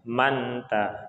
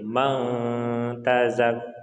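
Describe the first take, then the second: First: The n is pronounced clearly and fully. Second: The n is hidden as a nasalized sound. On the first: The speaker calls it wrong. "bukan dibaca manta" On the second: The speaker calls it right. "ikhfa hakiki, kita samarkan"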